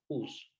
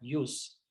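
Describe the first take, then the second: First: The word begins with a harsh throat sound. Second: The word begins with a soft y-like glide. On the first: "nosotros en español lo pronunciamos como jus" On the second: "en latín se, se, diría ius"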